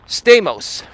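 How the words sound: The name is said with American pronunciation. This is the adapted form most people use. "we Americanize it like Stamos"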